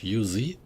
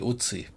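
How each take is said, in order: First: The word has an English pronunciation. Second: The word has a German pronunciation. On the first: "how would you pronounce it in English? Uzi?" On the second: "In German we say Uzi"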